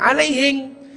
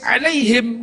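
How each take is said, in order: First: It ends in 'ng', as a Bugis speaker says. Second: It ends in a standard Arabic 'm' sound.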